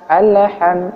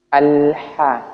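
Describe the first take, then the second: First: The L has a small bounce before H. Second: The L glides straight into the H. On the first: The speaker calls it wrong. "bukan alham, alham ... Salah" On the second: The speaker calls it right. "Sebenarnya itu alha"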